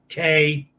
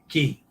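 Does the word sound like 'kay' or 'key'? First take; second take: kay; key. First: The word rhymes with 'day'. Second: The word rhymes with 'see'. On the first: This is how another person says it. "he pronounces C A Y K" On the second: This is how the speaker's group says it. "we pronounce it Key"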